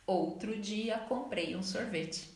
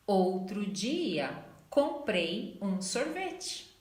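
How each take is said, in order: First: Said in the usual way. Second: Slow model sentence. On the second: Shown as a demonstration. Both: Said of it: "Em português fica".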